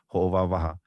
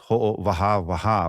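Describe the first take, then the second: First: The vowels in the word are short. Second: The vowels in the word are long. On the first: This is how native speakers say it. The speaker calls it right. "this word you pronounce it ho'o wawaha" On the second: This is how a dictionary spells it. The speaker calls it wrong. "with kahako kahako"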